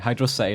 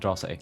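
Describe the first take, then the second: First: It is said as two separate words. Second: It is said as one word like atrocity. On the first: The speaker calls it right. "it's Hydro City" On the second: The speaker calls it wrong. "not Hydrocity"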